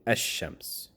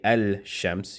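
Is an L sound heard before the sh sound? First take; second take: no; yes. First: No L sound; the sh is doubled. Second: An L sound is heard before the sh. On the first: The speaker calls it right. "you would say" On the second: The speaker calls it wrong. "You wouldn't say"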